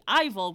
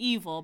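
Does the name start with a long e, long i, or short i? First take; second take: long i; long e. First: The name starts with a long i vowel. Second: The name starts with a long e vowel. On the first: "which sounds like Fival" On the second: "It could be evil, but that sounds like evil"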